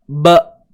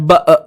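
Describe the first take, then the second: First: The syllable ends abruptly with the voice held back. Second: The syllable ends with an extra trailing 'e' vowel. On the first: The speaker calls it right. "suara yang tertahan" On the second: The speaker calls it wrong. "jangan ada tambah e belakang tu"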